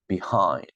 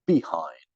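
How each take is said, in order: First: The stress is on the second syllable. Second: The stress is on the first syllable. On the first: The speaker calls it right. "second syllable" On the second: The speaker calls it wrong. "We're not saying behind, right?"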